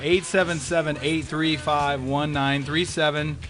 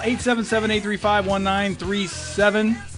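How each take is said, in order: First: The number is read at a slower pace. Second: The number is read at a quicker pace.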